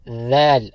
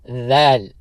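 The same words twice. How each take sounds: No difference in how they are said.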